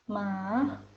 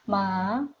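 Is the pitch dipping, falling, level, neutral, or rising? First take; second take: dipping; dipping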